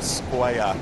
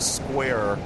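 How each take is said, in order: First: The final R is dropped. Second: The final R is clearly pronounced. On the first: It sounds local to Boston. "We want to hear square" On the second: It sounds like it is not from Boston. "When we hear square, we're upset"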